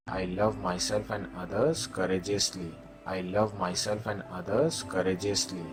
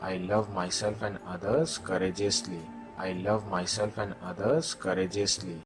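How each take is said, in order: Both takes have the same delivery.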